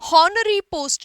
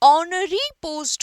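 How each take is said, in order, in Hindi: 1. यह h ध्वनि से शुरू होता है। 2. यह स्वर ध्वनि से शुरू होता है। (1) "नहीं होगा" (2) "होगा"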